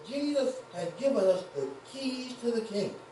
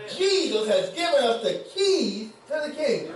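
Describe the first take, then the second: First: It is said calmly, with little energy. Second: It is said loudly, with excitement.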